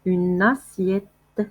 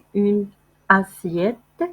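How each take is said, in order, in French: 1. Les deux mots sont liés en un seul son. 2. Les deux mots sont prononcés séparément, sans liaison. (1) "كنديروا لا ليزون حيت عندنا دو فوايل، كنقولوا" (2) "ما كنقولوش une assiette"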